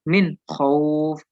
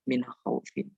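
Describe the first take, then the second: First: The word ends without the final -in sound. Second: The word ends with a final -in sound. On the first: The reciter stops at the end of the verse. The speaker calls it right. "Jadi dibaca min khauf" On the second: The reciter keeps reading without stopping. The speaker calls it wrong. "bukan min khaufin"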